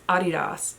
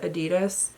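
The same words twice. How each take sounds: First: It is said with a German pronunciation. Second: It is said with an American pronunciation. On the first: This is how it is said in Germany. The speaker calls it right. "she's like, no, it's Adidas" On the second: This is how Americans say it. The speaker calls it wrong. "we call it Adidas"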